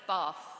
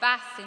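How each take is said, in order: First: It is said in a southern English accent. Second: It is said in a northern English accent. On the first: "instead of Bath" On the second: "full of people who speak and say Bath"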